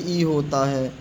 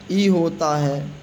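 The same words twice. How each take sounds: The two takes are said the same way.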